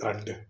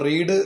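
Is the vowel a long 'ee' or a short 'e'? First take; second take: short e; long ee. First: The vowel is short, as in 'red'. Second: The vowel is long, as in 'reed'. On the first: It is the past-tense or past-participle form. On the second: It is the present-tense form.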